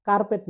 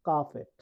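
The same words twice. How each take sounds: First: কার্পেট with the r sounded; R pronounced. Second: কার্পেট with no r; silent R. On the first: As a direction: say কার্পেট with r before the p. (র উচ্চারণ করে কার্পেট) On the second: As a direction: say কার্পেট as "kaa-pet". (র বাদ দিয়ে কার্পেট) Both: Shown as a demonstration. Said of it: "আর এর উচ্চারণ হবে না".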